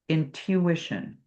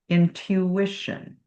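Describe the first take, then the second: No difference in how they are said.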